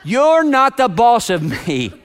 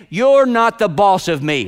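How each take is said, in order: First: Slower defiant taunt with a laugh; drawn-out kid defiance, laughing; playful mock defiance; inner child. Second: Put-on slow, defiant childish taunt; sulky kid pushing back; mock defiant child; inner child. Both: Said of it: "voice of that inner child".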